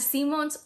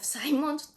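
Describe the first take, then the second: First: The surname is read with Spanish sounds. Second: The surname is read with English sounds.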